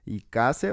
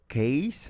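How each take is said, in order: First: The name starts with an extra syllable. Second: The name is one single syllable. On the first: The speaker calls it wrong. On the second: The speaker calls it right.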